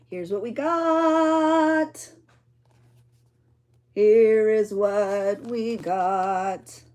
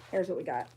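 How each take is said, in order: First: Grand reveal. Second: Said in the usual way. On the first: Shown as a demonstration. Crafter unveiling her finished journal page, drawn-out grand reveal.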